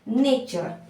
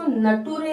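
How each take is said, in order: First: It is said with a ch sound in the middle. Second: It is read letter by letter with a t sound. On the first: The speaker calls it right. "इसको बोलेंगे नेचर" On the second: The speaker calls it wrong. "इसको नटूरे नहीं बोलेंगे"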